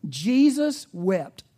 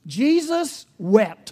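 First: Slow, louder restatement of Jesus wept; slow emphasis. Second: Slow, louder, higher proclamation of Jesus wept; solemn emphasis. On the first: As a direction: say it slow and weighty. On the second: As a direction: proclaim each word slowly. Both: Shown as a demonstration. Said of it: "That's the scripture".

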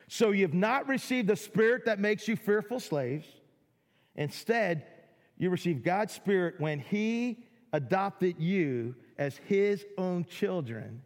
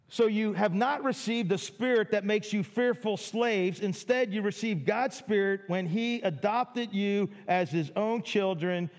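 First: Drawn-out and emphatic, letting each word sink in; slower second reading for weight; slow, deliberate reread. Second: Said in the usual way. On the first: Shown as a demonstration. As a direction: read it again slowly so it lands. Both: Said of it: "rereads the verse slowly".

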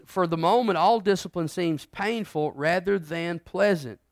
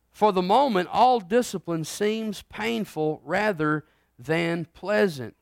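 First: Scripture reading. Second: Slow, measured scripture read. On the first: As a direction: lean into each word of the verse. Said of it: "go back over eleven again". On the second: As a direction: read the verse with weight. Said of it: "I'm gonna read". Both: Shown as a demonstration.

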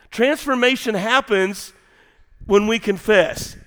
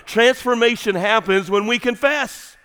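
First: Transformation happens when we confess spelled out slowly; slow emphatic repeat. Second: Said in the usual way. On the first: Shown as a demonstration. Preacher repeating the key point slowly to his congregation. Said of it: "slow repeat for emphasis". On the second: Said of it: "repeats slowly".

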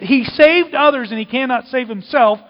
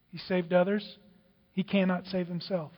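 First: Loud, raised quote of the taunt; amazed quoting. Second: Subdued quote. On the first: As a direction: throw the mockers' words out emphatically. Amazed, repeats the mockers' taunt. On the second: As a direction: quote the mockers quietly, letting it sink. Mockers' words, quoted softly. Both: Acted.

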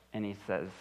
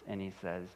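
No difference in how they are said.

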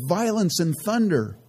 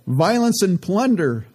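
First: Said in the usual way. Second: "Violence and plunder" said slowly, higher and louder, "plunder" clearly set right; corrected reading. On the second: Shown as a demonstration. Preacher correcting his misread verse, slow emphatic reread. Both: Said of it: "he didn't say violence and thunder".

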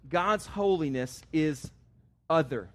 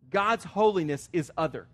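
First: Slow with a pause before other; drawn out, then other set apart; slow, weighty statement. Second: Said in the usual way. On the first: Shown as a demonstration. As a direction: let other land alone after a beat.

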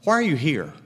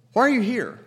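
First: Said in the usual way. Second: "are" pushed higher than the rest; stress on are. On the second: Shown as a demonstration. Preacher pressing his listeners, stress on "are". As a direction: lift "are" in "Why are you here?". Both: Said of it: "asked twice".

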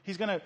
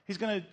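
Both takes have the same delivery.

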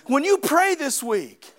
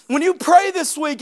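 First: Said in the usual way. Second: When you pray this week, pushed louder on you; louder repeat. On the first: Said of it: "repeated as a build". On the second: Acted. Pastor repeating the line to the church, louder. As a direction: hit it harder the second time. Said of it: "repeated louder".

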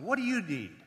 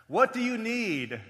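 First: "What do you need" raised a little, at ordinary volume; searching question. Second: "What do you need" high, loud and drawn out; emphatic repeated question. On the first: Preacher asking congregation about times of suffering, searching question. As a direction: ask "What do you need" with a mild lift. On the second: Preacher pressing congregation about hardship, emphatic question. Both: Real, not acted.

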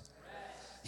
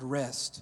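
First: Whisper. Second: Said in the usual way. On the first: Shown as a demonstration. Pastor leading the congregation in repeating rest, whispered. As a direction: breathe the word rest out in a soft whisper. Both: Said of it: "Everybody say that word".

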